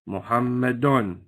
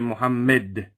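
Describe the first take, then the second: First: The word ends with an added -un sound. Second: The word ends on a bare d sound. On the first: The word is not at the end of the phrase. "If you have, for instance" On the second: The speaker stops at this word. "you stop and say Muhammad. You don't say anything. You drop the whole tanween"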